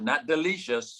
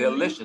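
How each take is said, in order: First: The second syllable has a long 'ee' vowel. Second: The second syllable has a short 'i' vowel. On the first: The speaker calls it wrong. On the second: The speaker calls it right. "Delicious, not delicious"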